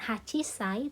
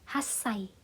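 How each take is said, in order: First: The word has a full 'chi' syllable. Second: The word has a doubled s sound. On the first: The speaker calls it wrong. "bukan Hachisai" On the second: The speaker calls it right. "tapi Hassai ya"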